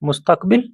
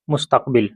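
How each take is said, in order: First: मुस्तकबिल said with a rising tune, like a question; rising drill. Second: मुस्तकबिल said lower and softer with a falling tune; falling drill. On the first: Teacher models मुस्तकबिल for students, rising tune. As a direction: lift the pitch at the end of मुस्तकबिल. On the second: Teacher repeats मुस्तकबिल to close the drill, falling tune. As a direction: let मुस्तकबिल drop and settle at the end. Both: Shown as a demonstration. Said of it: "अरबी में मुस्तकबिल ही बोला जाता है".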